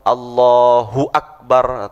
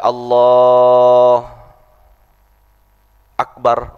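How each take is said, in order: First: The words are joined without a pause. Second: There is a pause between the words.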